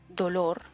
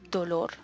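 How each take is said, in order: No difference in how they are said.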